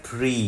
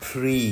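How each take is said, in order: Both takes have the same delivery.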